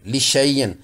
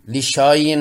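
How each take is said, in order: First: लिशैयन with ai, no alif; correct reading. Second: लिशायन with a long aa after श; wrong reading. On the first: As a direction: say लिशैयन with ai after श. (लिशैयन सही, ऐ के साथ) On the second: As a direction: show the mistaken long aa in लिशायन. (लिशायन गलत, श के बाद लंबा आ) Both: Shown as a demonstration. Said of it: "नहीं पढ़ेंगे".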